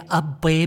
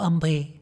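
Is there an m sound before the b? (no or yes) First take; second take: no; yes. First: A plain b sound with no m. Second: An m sound comes before the b. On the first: The speaker calls it right. "هي أبي بالباء" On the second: The speaker calls it wrong. "هي مو أمبي"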